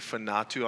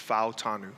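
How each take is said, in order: First: The n sound comes before the t sound. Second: The t sound comes before the n sound. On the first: The speaker calls it wrong. "they like switched the letters, the N and the T" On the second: The speaker calls it right. "so it's Fautanu"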